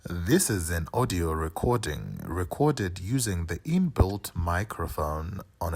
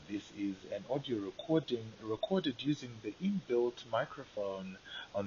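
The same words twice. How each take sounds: First: The voice sounds clear and undistorted. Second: The voice sounds distorted and lower quality. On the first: The speaker calls it right. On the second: The speaker calls it wrong.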